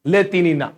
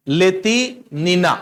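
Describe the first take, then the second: First: Said in the usual way. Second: लेतिनिना slowly in two parts, ले-ति, then नि-ना; slow, split name. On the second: Shown as a demonstration. Teacher repeating the gymnast's name for students, slowly, in parts. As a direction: stretch लेतिनिना with a break in the middle.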